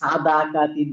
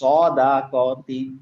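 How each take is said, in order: First: The first sound is said with an open mouth. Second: The first sound is said with rounded lips. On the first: The speaker calls it wrong. "Not সাদা কা তিন বলবো না" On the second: The speaker calls it right. "আমি যখন সদ বলবো আমার মুখটা গোল হয়ে যাবে"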